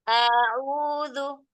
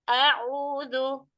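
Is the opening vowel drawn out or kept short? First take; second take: drawn out; short. First: The opening vowel after the glottal stop is lengthened. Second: The opening vowel after the glottal stop is short. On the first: The speaker calls it wrong. "jangan dipanjangkan, bukan a'udzu" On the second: The speaker calls it right. "A'u, jangan dipanjangkan"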